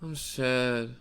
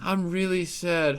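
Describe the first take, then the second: First: It sounds very gloomy, like Eeyore. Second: It sounds only mildly sad.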